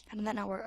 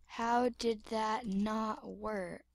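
First: Said in the usual way. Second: Slow, soft, puzzled question; quiet, stretched-out puzzlement; slow bafflement. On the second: Acted. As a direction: drag each word out quietly. Baffled question said slowly, then quicker.

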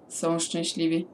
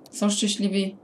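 First: Said in the usual way. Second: "Są szczęśliwi?" asked as a question, rising at the end; checking whether they're happy, with a questioning rise; asking tune. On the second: Real, not acted. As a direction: wonder aloud "Są szczęśliwi?".

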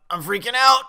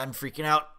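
First: High, loud outburst of panic; panicked shout. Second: Said in the usual way. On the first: Real, not acted. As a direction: burst out yelling as nerves take over. Repeats panic, second take yelled.

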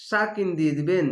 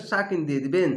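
The two takes are said the same way.

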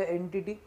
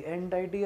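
First: "एंटिटी" said EN-ti-tee; short "i" in the middle of "एंटिटी"; standard pronunciation. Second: "एंटाइटी" said en-TIE-tee; alternative pronunciation. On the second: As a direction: middle of "एंटाइटी" rhymes with "tie". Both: Shown as a demonstration. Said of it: "इसको एंटाइटी भी बोलते".

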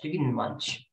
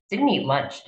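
First: Much softer muttered repeat; quiet mutter. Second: Said in the usual way. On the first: Real, not acted. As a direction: mutter it to yourself.

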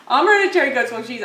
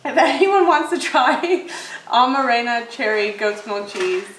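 First: Fast and a bit louder, sure now; quick correction. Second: Slow, halting, tripping over words; fumbling slowly. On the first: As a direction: rattle off the name cleanly. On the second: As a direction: stumble through the name with a laugh. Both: Real, not acted. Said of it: "Wait, I'm sorry, my brain's spacing".

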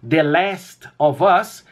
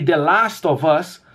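First: "The Last of Us" with short e-like vowel in Last; American-style pronunciation. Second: "The Last of Us" with open ah in Last; British-style pronunciation. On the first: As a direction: say "Last" slowly as "lest". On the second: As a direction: say "Last" slowly as "lahst". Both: Shown as a demonstration. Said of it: "estão corretas".

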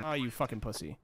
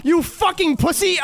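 First: Low, quiet, offhand jab; soft muttered insult. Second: Much higher, louder yelled insult; angry shout. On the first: Gamer taunting a fleeing enemy, low mutter. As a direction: toss off "Oh, you fucking pussy" under the breath. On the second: Gamer ambushed by the enemy he mocked, shouting. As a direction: scream "you fucking pussy!" in panic. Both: Real, not acted. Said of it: "I ate my words so fast".

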